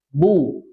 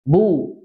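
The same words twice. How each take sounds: First: The lips close for b, then round. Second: The lips close for b, then round.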